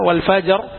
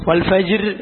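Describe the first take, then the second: First: ഫജർ stopped on a full heavy ra; ഫജർ closed on a heavy ra sound; heavy ra ending. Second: ഫജിർ with a clear i before the r; ഫജിർ voiced with the i, the way it should not be; wrong light ending. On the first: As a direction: end ഫജർ on a thick ra with no i. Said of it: "വൽ ഫജിർ എന്നല്ല". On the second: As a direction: say ഫജിർ with a light i sound at the end. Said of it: "എന്നല്ല". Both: Shown as a demonstration.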